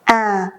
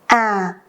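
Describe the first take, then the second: First: The pitch starts low and falls slowly. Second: The pitch starts low and falls slowly.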